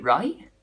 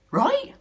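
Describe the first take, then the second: First: Said in the usual way. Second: Right? jumps much higher and louder, squeaked; squeaky disbelieving right. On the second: Acted. Doubting his own bag plan, Right? squeaked in disbelief. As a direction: shoot Right? way up in pitch, incredulous. Pressing himself for an answer.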